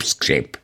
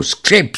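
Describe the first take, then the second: First: The last creak, low and soft, dying away; fading creak. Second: Creaking prosthesis. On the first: Narrator imitating the prosthesis creak as it fades. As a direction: let the creak die out, lower and softer. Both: A narrator's reading. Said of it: "protézy skřípou".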